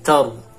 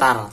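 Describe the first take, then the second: First: The ra sound is heavy with rounded lips. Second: The ra sound is light and thin. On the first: The speaker calls it right. "baca tebalkan, dimasukkan bibirnya" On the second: The speaker calls it wrong. "Kan tar"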